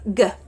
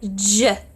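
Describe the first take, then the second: First: The consonant is a hard g sound. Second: The consonant is a soft j sound. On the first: The speaker calls it wrong. "Someone may read it as G" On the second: The speaker calls it right. "instead of reading it closer to J letter"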